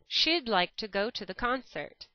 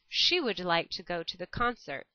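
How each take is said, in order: First: 'She would' is run together as 'she'd'. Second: Both words 'she would' are said separately.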